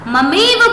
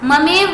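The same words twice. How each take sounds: First: The middle vowel is a long two-measure ai. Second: The middle vowel is a short single-measure e. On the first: The speaker calls it right. "शुद्ध होगा और दोनों मात्रा का उच्चारण हुआ होगा" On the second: The speaker calls it wrong. "ममेव बोलोगे तो एक मात्रा"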